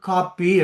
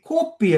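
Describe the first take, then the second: First: The first vowel is an open long a sound. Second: The first vowel is a rounded o sound. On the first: This is the Tamil Nadu way of saying it. "அவர்கள் அதை கிடையா போட்டு காப்பி எண்ணுவினோம்" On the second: This is the Sri Lankan Tamil way of saying it. "நாங்கள் அதை நல்லா நிமித்தி கோப்பி எண்ணுவோம்"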